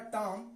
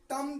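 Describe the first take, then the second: First: "टॉम" with a long vowel, ending on m; silent b. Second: "टम" read as spelt, short vowel; as written. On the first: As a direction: drop the b from "टॉम". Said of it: "सिर्फ पढ़ा जाएगा T O M". ("टॉम" में ब silent, लंबा स्वर) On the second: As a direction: sound "टम" out by its letters. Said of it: "टम तो लिखा जाएगा". ("टम" जैसा लिखा, वैसा उच्चारण) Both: Shown as a demonstration.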